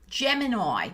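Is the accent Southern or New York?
New York. It is said in a New York accent.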